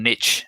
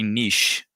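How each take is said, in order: First: It is pronounced in an American way. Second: It is pronounced in a non-American way.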